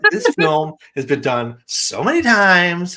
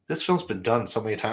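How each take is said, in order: First: It is read in a dramatic, exasperated tone. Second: It is read in a plain, neutral tone. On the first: The commenter is fed up with the film. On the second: The comment is simply read out.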